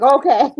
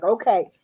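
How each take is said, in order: First: "Okay" blurted loud and high with relief; loud, high burst of relief; loud relieved okay. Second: Said in the usual way. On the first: Retold or imitated. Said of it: "We both were like". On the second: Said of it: "We're like".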